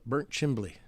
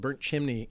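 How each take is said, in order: First: The second word has an added 'bl' sound. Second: The second word has a plain 'mn' sound. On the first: This is how the locals say it. "most of the people in Franklin County call it Burnt Chimbley" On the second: This is the official name of the place. "we have a place called Burnt Chimney"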